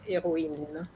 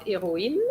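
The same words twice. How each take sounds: First: Héroïne falling down and softer; falling final tune. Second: Héroïne left up, not finished; mock rising ending. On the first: Teacher showing Anna the sentence-final fall, softer. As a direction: drop the voice on héroïne. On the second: Teacher imitating Anna's unfinished tune. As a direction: imitate the student's rise. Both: Shown as a demonstration.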